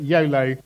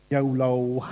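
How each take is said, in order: First: Said in the usual way. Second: A lightly silly, jokey yolo. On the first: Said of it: "Don't know why I say it". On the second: Acted. Preacher teasing the congregation with a mildly silly voice. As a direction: toss the word off in a mild put-on silly voice. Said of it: "in that silly voice".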